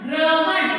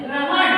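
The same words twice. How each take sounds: First: ग्रहण said louder, r after g, ending clearly; careful demo word. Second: ग्रहण said with र right after ग, rising; careful demo word. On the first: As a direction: repeat ग्रहण firmly for the class. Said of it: "ग पहले आया है". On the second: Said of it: "यह शब्द के बाद बोला जाता है". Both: Shown as a demonstration.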